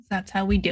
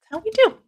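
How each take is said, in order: First: Said in the usual way. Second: That's how we do, jumped way up high and louder; a high cheeky echo of the catchphrase; sing-song high. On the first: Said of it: "repeats the catchphrase". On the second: Acted. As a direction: toss the repeat up into a high playful squeak. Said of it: "repeats it higher, sing-song".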